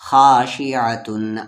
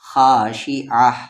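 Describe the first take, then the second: First: The word ends with a full tun sound. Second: The word ends with a soft h sound. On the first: The reader continues without stopping. "अगर आयत पर आप नहीं रुकते हैं" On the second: The reader stops at the end of the verse. "आयत की वजह से ये ता हा बनेगा"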